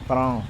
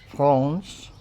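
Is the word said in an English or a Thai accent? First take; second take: Thai; English. First: Thai pronunciation, without the final s sound. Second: English pronunciation, ending with an s sound. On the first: "the Thais try to pronounce it Frong" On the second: "when we say France"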